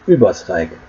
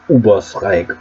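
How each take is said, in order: First: The first vowel is a rounded 'ü'. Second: The first vowel is a plain 'oo'. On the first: The speaker calls it right. "It's Übersreich, even if it's missing the two dots" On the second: The speaker calls it wrong. "not Übersreich, Ubersreich, or whatever"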